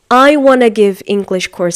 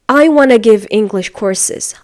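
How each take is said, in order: First: "Want to" is reduced to "wanna". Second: The same.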